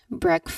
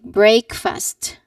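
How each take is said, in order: First: It is joined together and sounds like one word. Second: It sounds like two separate words, break and fast. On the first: The speaker calls it right. "this word is a compound word" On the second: The speaker calls it wrong. "the common mistake that people do is pronouncing it as a two distinct word"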